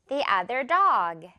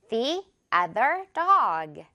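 First: It is said faster and more naturally. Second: It is said at a slower pace.

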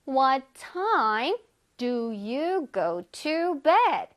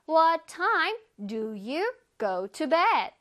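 First: The sentence is said slowly. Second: The sentence is said quickly and linked.

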